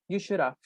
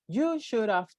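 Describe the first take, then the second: First: The word have is reduced to a v. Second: The word have is pronounced fully. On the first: The speaker calls it right. "They always say" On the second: The speaker calls it wrong. "It's weird to say"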